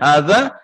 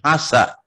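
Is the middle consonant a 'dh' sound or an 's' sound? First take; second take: dh; s. First: The middle consonant is a 'dh' sound. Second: The middle consonant is an 's' sound. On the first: The speaker calls it right. "mestinya hadza" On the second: The speaker calls it wrong. "dia bilang hasa. Ini adalah sesuatu yang keliru"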